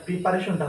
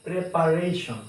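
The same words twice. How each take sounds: First: "প্রিপারেশনটা" starting with pree; "প্রিপারেশনটা" as pree-pa-re-shon-ta; mistaken pronunciation. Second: "প্রিপারেশন" as preh-pa-RAY-shon; "প্রিপারেশন" with e first and a long ei; correct pronunciation. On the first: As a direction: say "প্রিপারেশনটা" with plain re. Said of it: "ভুল". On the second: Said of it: "এটা হবে". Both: Shown as a demonstration.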